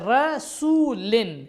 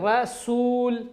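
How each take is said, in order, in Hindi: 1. शब्द 'in' की आवाज़ पर खत्म होता है। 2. शब्द बिना स्वर वाले 'l' की आवाज़ पर खत्म होता है।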